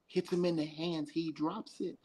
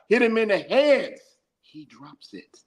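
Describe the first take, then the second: First: It is said at normal volume. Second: It is said louder.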